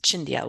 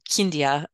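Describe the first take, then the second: First: The name begins with a CH sound. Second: The name begins with a K sound. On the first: The speaker calls it wrong. "otherwise we're going to pronounce it Chindia, which would be wrong" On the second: The speaker calls it right. "were Kindia in Romanian"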